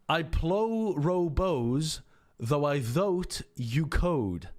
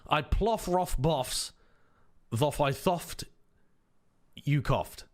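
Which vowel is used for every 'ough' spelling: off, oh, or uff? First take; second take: oh; off. First: Every 'ough' is said with an 'oh' sound. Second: Every 'ough' is said with an 'off' sound. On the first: "Or do you use the pronunciation perhaps for though?" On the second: "let's use the pronunciation for cough"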